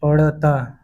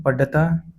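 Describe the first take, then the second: First: Said in the usual way. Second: पढ़ता with a hard stopped ḍh and extra vowel; पढ़ता without the flap, as पढता. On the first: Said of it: "शुद्ध है". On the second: Shown as a demonstration. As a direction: say पढ़ता as paḍḍha-taa. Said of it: "अशुद्ध होता है".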